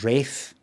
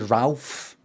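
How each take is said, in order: First: It has a long vowel and no L sound. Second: It has a short vowel and an L sound. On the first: The name has a German origin. "I've got German Ralph, which is pr- actually pronounced Rafe" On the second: The name has an Italian origin. "The Ralph where you say Ralph is actually the Italian thing"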